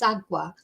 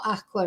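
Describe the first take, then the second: First: The middle consonant is a g sound. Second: The middle consonant is a k sound. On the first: The speaker calls it right. "it's agua" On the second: The speaker calls it wrong. "It's not aqua"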